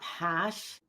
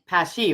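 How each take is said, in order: First: The name ends without a final vowel. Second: The name ends with a sounded final vowel. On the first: The speaker calls it wrong. "not Pash" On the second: The speaker calls it right. "With the E on the end"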